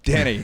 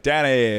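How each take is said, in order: First: Said in the usual way. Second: Lightly mimicked flamboyant man; a hint of camp in the name; flamboyant heckler. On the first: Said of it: "And I'm like". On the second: Heckler giving the host his name, lightly flamboyant. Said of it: "Flamboyantly gay".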